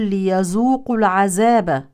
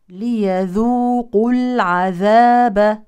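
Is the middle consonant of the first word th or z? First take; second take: z; th. First: The first word has a z sound. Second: The first word has a voiced th sound. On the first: The speaker calls it wrong. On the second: The speaker calls it right.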